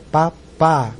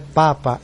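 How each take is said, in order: First: The stress is on the second syllable. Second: The stress is on the first syllable. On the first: The speaker calls it right. "o final da sílaba mais forte é o Papá, o último P A" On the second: The speaker calls it wrong. "Não é Papa"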